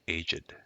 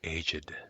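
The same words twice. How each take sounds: First: The word is said as one syllable. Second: The word is said as two syllables. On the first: The speaker calls it wrong. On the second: The speaker calls it right.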